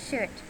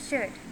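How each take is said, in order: No difference in how they are said.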